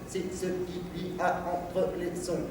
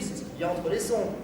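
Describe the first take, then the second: First: The syllable endings are released flat and uniform. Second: The syllable endings are released with varied shaping. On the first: It sounds a bit foolish. The speaker calls it wrong. "là, j'ai l'air un peu idiot" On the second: It sounds less foolish. The speaker calls it right. "J'ai changé mes lâchers, j'ai pas changé l'attaque"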